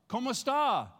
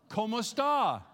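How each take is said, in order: The two takes are said the same way.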